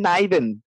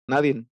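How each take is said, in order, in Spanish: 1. La palabra termina en sonido n. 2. La palabra termina en sonido de vocal.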